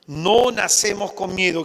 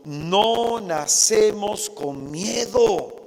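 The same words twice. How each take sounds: First: Said in the usual way. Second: "No nacemos con miedo" drawn out slowly, weight on "No"; slow emphatic. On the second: Shown as a demonstration. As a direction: lean on "No" and stretch the whole line. ("No" enfatizado, todo muy lento)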